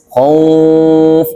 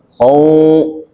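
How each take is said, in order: Both takes have the same delivery.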